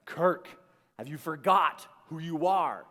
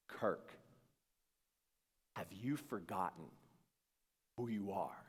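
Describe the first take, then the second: First: Loud, commanding challenge; forceful inner voice. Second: Low, soft, solemn question with long pauses; hushed inner voice. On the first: Inner voice confronting Kirk one more time, forceful. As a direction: call him out firmly, name first, then the question. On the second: New voice in his head questioning Kirk, hushed. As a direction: sink to a near-whisper, phrase by phrase. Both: Retold or imitated.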